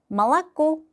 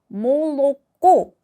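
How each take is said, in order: First: The first vowel sounds like 'a'. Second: The first vowel sounds like 'o'. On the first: The speaker calls it right. "말랐고가 됩니다" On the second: The speaker calls it wrong. "쓸 때는 몰랐고 라고 쓰지만"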